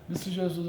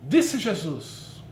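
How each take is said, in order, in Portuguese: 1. Lê-se em tom monótono, sem variação. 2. Lê-se com variação de tom e ênfase. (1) "é uma leitura chata" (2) "dando ênfase, dando entonação, modulação de voz"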